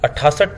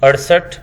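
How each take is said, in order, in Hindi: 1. बीच का व्यंजन अस्पिरेटेड ट है। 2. बीच का व्यंजन फ्लैप्ड र है।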